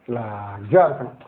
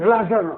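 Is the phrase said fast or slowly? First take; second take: slowly; fast. First: The phrase is said slowly and calmly. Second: The phrase is said quickly and rushed. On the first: The speaker calls it right. "அந்த வார்த்தை சொல்லும் பொழுதே ஒரு relaxation" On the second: The speaker calls it wrong. "வேகமாக சொல்ல மாட்டேன்"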